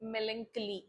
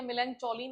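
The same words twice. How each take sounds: First: Melancholy said MEL-un-kuh-lee with a hard k; correct pronunciation. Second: Melancholy said wrongly as mel-AN-cho-lee with a ch sound; wrong pronunciation. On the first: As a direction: model it cleanly: melancholy, stress on MEL. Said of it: "क्या बोलना है इसको?". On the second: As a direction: show the mistake: melancholy with ch, not k. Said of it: "इसका pronunciation ध्यान रखना". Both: Shown as a demonstration.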